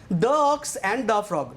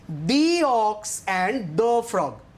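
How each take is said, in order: First: 'The' before 'ox' sounds like 'thuh'. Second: 'The' before 'ox' sounds like 'thee'. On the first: The speaker calls it wrong. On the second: The speaker calls it right.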